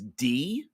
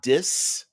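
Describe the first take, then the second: First: The name rhymes with 'bee'. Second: The name rhymes with 'miss'. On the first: This is how the speaker usually says it. "I always pronounce the name of this location from D I S as D" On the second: This is how the speaker does not say it. "not dis"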